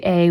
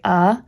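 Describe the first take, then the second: First: "a" said as "ay", like the letter name; stressed "ay" form of "a"; full vowel. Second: "a" said as "uh", a schwa; weak everyday "uh" form of "a"; reduced vowel. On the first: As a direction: say "a" to rhyme with "day". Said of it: "if we don't say a". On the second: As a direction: say "a" as a short unstressed "uh". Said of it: "we say a". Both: Shown as a demonstration.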